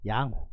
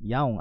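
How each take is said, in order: First: The middle h sound is clearly pronounced. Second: The middle h sound is dropped. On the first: The speaker calls it right. "아니고 양호" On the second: The speaker calls it wrong. "양옹 아니고"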